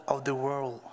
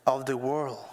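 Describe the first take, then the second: No difference in how they are said.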